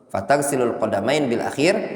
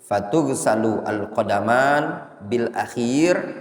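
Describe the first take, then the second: First: The verb starts with an a vowel: taghsilu. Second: The verb starts with a u vowel: tughsalu. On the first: You wash your feet last. "khitab anta" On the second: The feet are to be washed last. "Kalau dibaca majhul"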